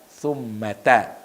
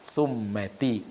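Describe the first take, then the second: First: The word ends with an 'a' vowel. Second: The word does not end with an 'a' vowel. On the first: The speaker calls it right. "dibaca summata" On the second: The speaker calls it wrong. "bukan summati"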